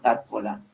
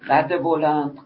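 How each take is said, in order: First: No linking vowel joins the two words. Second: A linking 'e' vowel joins the two words.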